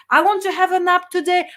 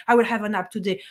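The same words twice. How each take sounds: First: I want said up high, longing; wishful want version. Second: I WILL said low and settled; firm will version. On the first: Contrasting wish and intention, wistful wanting. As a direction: demo the weak wish: I WANT to have a nap. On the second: Contrasting wish and intention, firm and decided. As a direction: demo the decisive choice: I will have a nap. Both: Shown as a demonstration.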